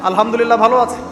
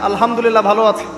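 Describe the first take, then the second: Both takes have the same delivery.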